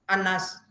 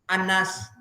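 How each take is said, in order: No difference in how they are said.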